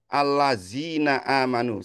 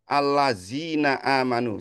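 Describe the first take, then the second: First: The middle consonant is a buzzing 'z' sound. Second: The same.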